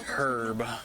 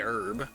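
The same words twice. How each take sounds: First: The word begins with an audible h sound. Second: The word begins with a vowel, no h sound. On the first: "I don't know anyone who says herb" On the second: "I do not pronounce the H"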